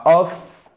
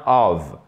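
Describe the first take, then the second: First: "of," ending in a voiceless F; wrong F ending. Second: "of." ending in a voiced V. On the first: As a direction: say "of," as if spelled off. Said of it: "on ne dit pas of". (« of, » avec un F sourd final) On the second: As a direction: say "of." as ov, with a buzzing V. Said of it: "ça se prononce comme un V". (« of. » avec un V sonore final) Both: Shown as a demonstration.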